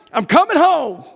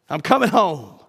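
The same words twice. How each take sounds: First: High and loud, full of joy; rejoicing cry. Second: Said in the usual way. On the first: Acted. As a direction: shout it with overjoyed certainty. Rejoicing dying believers.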